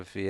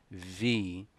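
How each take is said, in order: First: "V" as a bare buzzing vvv, no ee; letter sound. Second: "V" said as the English letter name, vee; letter-name pronunciation. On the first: Teacher showing students the sound of the letter, letter sound. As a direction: voice only the consonant of "V". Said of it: "o som da letra V é". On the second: Teacher contrasting letter name with sound, letter-name pronunciation. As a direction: say "V" with a long ee vowel. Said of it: "a pronúncia é". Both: Shown as a demonstration.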